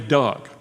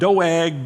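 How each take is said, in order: First: The name is said as Doug. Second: The name is said as Doeg. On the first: The speaker calls it right. "so I'm just going to say Doug" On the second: The speaker calls it wrong. "Doeg doesn't sound good to me"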